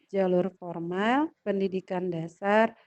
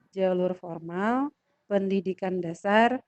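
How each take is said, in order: The two takes are said the same way.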